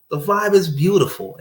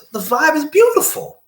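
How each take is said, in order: First: Said in the usual way. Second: High, sing-song praise of the mood; dreamy delight. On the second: Retold or imitated. To the listener, savoring the happy day: high dreamy delight. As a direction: float up on beautiful.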